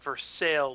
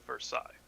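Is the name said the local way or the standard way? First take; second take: local; standard. First: It is said with the local pronunciation. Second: It is said with the standard pronunciation. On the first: This is how people here say it. "we've got Versailles" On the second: This is how it is said elsewhere. "instead of Versailles"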